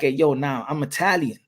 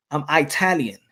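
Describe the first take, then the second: First: Said in the usual way. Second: "Italian" said with a long EYE at the start; Eye-talian pronunciation. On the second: Retold or imitated. Italian person insisting on identity, "Italian" pronounced EYE-talian. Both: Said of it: "an Italian person is gonna be like".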